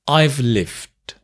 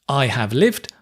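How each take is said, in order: First: 'I have' is contracted to one syllable. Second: 'I have' is said as two full words.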